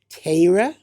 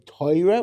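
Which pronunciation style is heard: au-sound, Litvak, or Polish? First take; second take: Litvak; Polish. First: The first vowel has a Litvak-style quality. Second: The first vowel has a Polish-style quality. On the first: "That's what a, a true Litvak would say" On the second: "which is kind of the yeshivish pronunciation, but that's really Polish"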